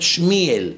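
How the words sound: The name is said in a Hasidic pronunciation.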